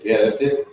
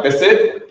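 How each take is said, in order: First: Said in the usual way. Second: "That's it?" asked with a rise, a little louder; disbelieving question "That's it?"; incredulous "That's it?". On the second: Retold or imitated. Incredulous reaction to brief reply.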